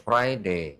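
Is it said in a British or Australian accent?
British. It is said in a British accent.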